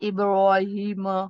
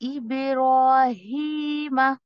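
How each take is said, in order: First: The sounds are said heavy and thick. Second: The sounds are said light and thin. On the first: The speaker calls it wrong. "ऐसे नहीं करना है आपको" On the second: The speaker calls it right. "हल्का करके पढ़ेंगे"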